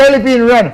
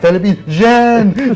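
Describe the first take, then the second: First: The last word begins with an R sound. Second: The last word begins with a J sound. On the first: "we can't even agree on how to pronounce Chonko or Ren" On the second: "the other guy says Chonko or Jen"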